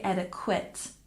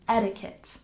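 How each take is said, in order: First: The stress is not on the first syllable. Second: The stress is on the first syllable. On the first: The speaker calls it wrong. "We don't say etiquette" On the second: The speaker calls it right. "we say etiquette"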